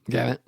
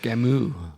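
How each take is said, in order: First: The final T sound is pronounced. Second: The final T sound is left silent.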